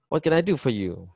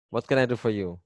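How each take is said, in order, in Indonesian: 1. Kata 'do' mendapat penekanan yang kuat. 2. Kalimatnya diucapkan datar, tanpa kata yang ditekan. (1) "Do-nya ditekan" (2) "Kadang dibaca datar"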